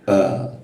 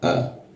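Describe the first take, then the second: First: The vowel is produced deep in the throat. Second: The vowel is produced forward in the mouth. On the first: The speaker calls it right. "yang benar adalah huruf A di bagian tenggorokan dalam sini" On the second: The speaker calls it wrong. "Orang Indonesia biasa menggunakan huruf A di bagian mulut, dalam mulut"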